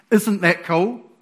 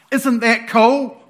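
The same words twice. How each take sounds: First: Said in the usual way. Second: Louder, slower and higher; excited. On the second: Real, not acted. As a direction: really sell how cool it is.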